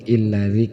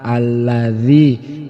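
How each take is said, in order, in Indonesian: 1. Kata ini diawali dengan vokal i. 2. Kata ini diawali dengan vokal a. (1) "ataupun illadzi" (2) "kita memulainya dengan menggunakan fathah a"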